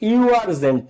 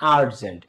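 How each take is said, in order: First: The word begins with a 'yoo' sound. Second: The word begins with an 'uh' sound. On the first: The speaker calls it wrong. "ইউ আর্জেন্ট না" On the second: The speaker calls it right. "তখন এটা আ হয়ে যাচ্ছে"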